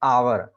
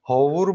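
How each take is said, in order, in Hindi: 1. यह स्वर से शुरू होता है, और h नहीं है। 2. यह h से शुरू होता है, और 'o' स्वर है। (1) "आवर बोलते हैं, एच साइलेंट रहता है" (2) "होवुर भी नहीं बोलते हैं उसको"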